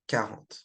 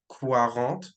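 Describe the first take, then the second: First: The u after the q is silent. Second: The u after the q is sounded. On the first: The speaker calls it right. "It's just quarante" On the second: The speaker calls it wrong. "don't pronounce the quarante like quarante, right? With the Q U"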